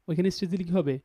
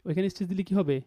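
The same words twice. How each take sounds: The two takes are said the same way.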